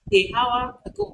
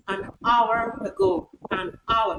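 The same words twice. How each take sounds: First: "a hour" with the h sounded; mispronunciation demo. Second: "an hour" with silent h; correct pronunciation. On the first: Lecturer showing the error, h sounded in "hour". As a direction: say "hour" as "how-er" after a. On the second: Lecturer modelling the right form, silent h in "hour". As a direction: link "an" into "hour", no h. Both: Shown as a demonstration.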